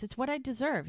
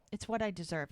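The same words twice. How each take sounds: First: "It's what I deserve" pitched much higher, insisting; retold protest, lift "It's what I deserve" well up in pitch; insistent repeat. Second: Said in the usual way. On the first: Man answering her shocked "What?", retold as insistent self-blame.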